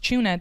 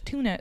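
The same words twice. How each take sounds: First: The word is said in an Irish accent. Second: The word is said in an American accent. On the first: "that sounds Irish" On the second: "tuna sounds American"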